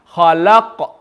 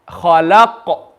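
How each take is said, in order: Both takes have the same delivery.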